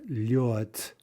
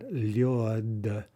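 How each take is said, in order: First: The word ends with a voiceless t sound. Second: The word ends with a voiced d sound. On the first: The speaker calls it right. "but lyot" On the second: The speaker calls it wrong. "we say not lyod"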